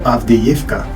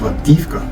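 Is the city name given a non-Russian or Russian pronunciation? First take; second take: Russian; non-Russian. First: The name is said with a Russian pronunciation. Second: The name is said with a non-Russian pronunciation.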